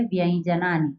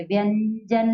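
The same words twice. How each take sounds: First: Low व्यंजनानी as "vyain-janani"; correct palatal nasal. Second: व्यंजन with a held n, "vyann-jan"; wrong n nasal. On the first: Teacher correcting the habitual reading, palatal nasal glide. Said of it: "क्या कहेंगे". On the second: Teacher rejecting the habitual reading, n sound. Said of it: "व्यंजन नहीं कहेंगे". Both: Shown as a demonstration.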